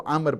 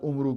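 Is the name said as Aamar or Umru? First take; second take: Aamar; Umru. First: The name is said as two syllables, Aa-mar. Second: The name is said as two syllables, Um-ru. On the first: The speaker calls it right. "जब वाव आती है तो आमर पढ़ा जाता है" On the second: The speaker calls it wrong. "हमारे यहाँ पास उमरू कहते हैं, वो गलत है"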